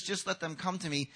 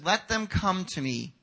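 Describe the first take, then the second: First: Said in the usual way. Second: "Let them come to me" slow and deliberate; slower, deliberate emphasis. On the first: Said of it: "not that Jesus says". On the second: Shown as a demonstration. Preacher correcting the idea, "Let them come to me" slowly emphasised. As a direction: give each word of "Let them come to me" room. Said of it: "but he says".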